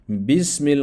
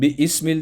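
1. Ortadaki sesli harf düşer, kelime tek parça hâline gelir. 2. Ortadaki sesli harf telaffuz edilir, kelimeyi ikiye ayırır.

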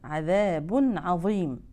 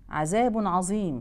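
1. الحرف في 'azim' ثاء مفخمة. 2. الحرف في 'azim' ظاء مفخمة. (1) "بيكون في ملامسة لطرف اللسان مع أطراف الثنايا العليا" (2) "يقرأوها ظاء فيقولوها عظيم"

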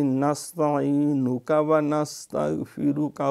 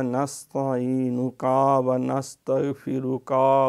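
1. हर अंतिम 'ka' स्वर को छोटा रखा जाता है। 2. हर अंतिम 'ka' स्वर को लंबा खींचा जाता है। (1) "इसमें कोई लंबाई नहीं करनी" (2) "यहाँ अक्सर बच्चे ये गलती करते हैं"

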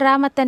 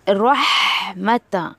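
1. बीच में h आवाज़ छूट जाती है। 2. बीच में h आवाज़ साफ़ सुनाई देती है। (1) "रामतन रामतन नहीं करना" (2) "इट्स रहमता"

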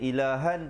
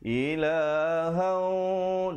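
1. Bunyi sengau di akhir pendek dan biasa. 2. Bunyi sengau di akhir ditahan selama dua ketukan. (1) "Asalnya ilahan" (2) "kena baca ilahan, dua harakat"

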